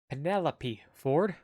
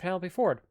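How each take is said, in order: First: The name is said at a slower pace. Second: The name is said very quickly.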